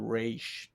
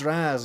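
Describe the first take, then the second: First: The name rhymes with the word page. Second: The name ends in a z sound, like 'rahz'. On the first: The speaker calls it wrong. "It sounds like rage" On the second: The speaker calls it right. "it's Raz"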